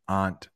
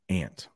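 First: Aunt is not said like the insect ant. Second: Aunt is said just like the insect ant.

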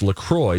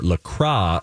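First: The name ends rhyming with the word enjoy. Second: The name is said with a French-style ending. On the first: The speaker calls it right. "it's pronounced LaCroix so that it rhymes with enjoy" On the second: The speaker calls it wrong. "not La Croix or La Croix like the French would attempt to say"

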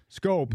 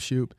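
First: The name begins with an 'sk' sound. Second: The name begins with an 'sh' sound. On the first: The speaker calls it right. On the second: The speaker calls it wrong.

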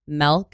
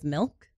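First: The word is said in an upstate New York accent. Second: The word is said in a general accent. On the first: "they'll say, like, milk" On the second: "instead of milk"

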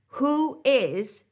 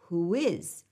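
First: The words are said separately without a glide. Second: A W glide links the two words.

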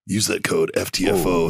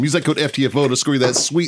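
First: It is read in a deep, macho voice. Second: It is read in a plain voice.

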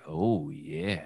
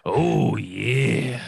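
First: It is said in a sexy voice. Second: It is said in a plain voice.

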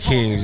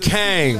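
First: The vowel sounds like the 'i' in sit. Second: The vowel sounds like the 'a' in hang. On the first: The speaker calls it wrong. "you ain't saying it right" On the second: The speaker calls it right. "There you go"

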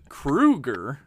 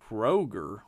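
First: The first vowel sounds like 'oo'. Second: The first vowel sounds like 'oh'. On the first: The speaker calls it right. "But it is, in fact, Kroeger, like the Nightmare on Elm Street icon" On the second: The speaker calls it wrong. "You might be tempted to say Kroger, like the grocery store chain"

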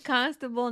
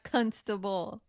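First: The first syllable sounds like 'con'. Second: The first syllable sounds like 'cun'. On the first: The speaker calls it right. "It's constable" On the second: The speaker calls it wrong.

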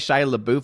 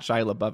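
First: LaBeouf is said in a playful, unusual pronunciation. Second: LaBeouf is said in the ordinary, standard pronunciation. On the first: "It's fun to say Shia LaBeouf" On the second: "not Shia LaBeouf"

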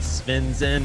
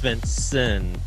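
First: The second syllable is said weakly. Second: The second syllable is said strongly. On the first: The speaker calls it wrong. "you were a little lazy on the second syllable. It's not Svensson" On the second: The speaker calls it right. "it's Svensson. So you have to kind of put a little more emphasis"

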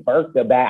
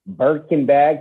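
First: The name ends with a vowel sound. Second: The name ends with an n sound. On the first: The speaker calls it wrong. "I used to say Birka bag" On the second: The speaker calls it right. "I hope I'm saying that correctly"

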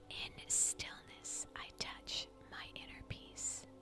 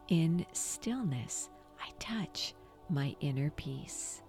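First: It is whispered softly without full voice. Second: It is spoken aloud in a full voice. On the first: "whisper this affirmation" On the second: "out loud, engage the power of your voice"

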